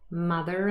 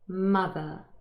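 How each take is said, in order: First: An r sound links it to the next word. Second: It ends in a vowel with no r sound. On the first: "Hopefully you were able to hear the linking r appear here" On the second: "So mother"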